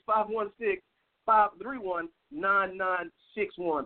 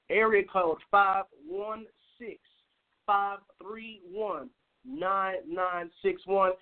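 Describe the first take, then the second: First: The number is said at a quicker pace. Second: The number is said at a slower pace.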